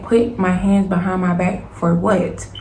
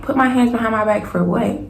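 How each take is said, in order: First: Slow, word-by-word retold protest; indignant insistence. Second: Retold indignant question, rising at the end; indignant disbelief. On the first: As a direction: spell out the objection slowly, indignantly. Repeats protest to police, slower. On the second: Retold protest to police.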